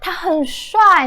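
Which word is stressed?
很. The word 很 is said with strong stress. He is very handsome. "depending on the tone that you're saying"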